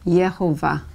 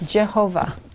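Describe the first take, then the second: First: The name begins with a Y sound. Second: The name begins with a J sound. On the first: "It can also be pronounced with the Y sound" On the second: "Jehovah with the J"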